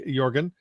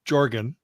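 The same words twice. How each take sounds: First: The name has a non-American pronunciation. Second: The name has an American pronunciation.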